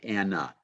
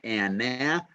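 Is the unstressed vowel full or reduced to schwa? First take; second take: schwa; full. First: The unstressed vowel is a weak uh sound. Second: The unstressed vowel is a full vowel. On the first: The speaker calls it right. "we say Anna" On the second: The speaker calls it wrong. "we do not say Anna"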